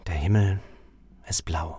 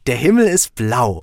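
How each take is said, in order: First: It sounds very sad. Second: It sounds very happy.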